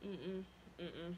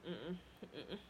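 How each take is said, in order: Both takes have the same delivery.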